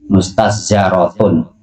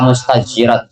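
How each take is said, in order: First: The vowel after the z is a. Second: The vowel after the z is i. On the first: The hair is raised up by someone. "dengan fathahnya za" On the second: The hair is raised up on its own. "dikasir zaid"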